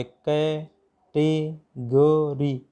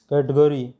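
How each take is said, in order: First: "category" very slowly in four separate syllables. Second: Said in the usual way. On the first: Shown as a demonstration. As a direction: break "category" into कै, टे, ग, री with pauses. ("Category" के चार अक्षर रुक-रुक कर, बहुत धीरे) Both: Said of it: "category में चार हो गए".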